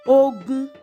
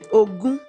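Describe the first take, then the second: First: The tones are mid then mid. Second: The tones are mid then high. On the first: It means war. "Rere, Rere. Ogun is a war" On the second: It means the number twenty. "Remi, Remi, which is twenty"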